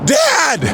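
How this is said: It is said quickly and impetuously.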